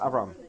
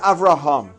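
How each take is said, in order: First: The name is said quickly with the middle syllable dropped. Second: The name is said in full with all syllables. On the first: "you're saying it quickly, so it's Avram" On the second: "But it's Avraham"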